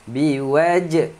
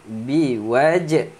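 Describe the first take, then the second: The two takes are said the same way.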